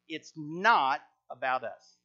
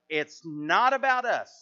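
First: The word 'not' is strongly emphasized. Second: The word 'not' gets no special emphasis.

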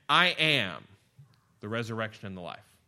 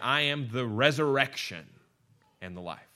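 First: The stress is on "I am". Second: The stress is on "resurrection".

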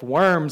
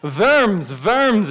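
First: The word begins with a W sound. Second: The word begins with a V sound. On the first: It names crawling creatures. The speaker calls it wrong. "like we're eating those little crawly things" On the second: It names a German town. The speaker calls it right. "It's a V sound with the W"

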